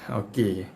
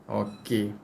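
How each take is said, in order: Both takes have the same delivery.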